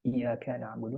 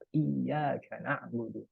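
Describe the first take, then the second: First: The consonant is single with no push. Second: The consonant is doubled with a forceful push. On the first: We worship the sunlight. The speaker calls it wrong. "kalau nggak pakai tasydid" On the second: We worship only you. The speaker calls it right. "Itu ada tasydid, ... ada penekanan. ... Iya agak menghentak"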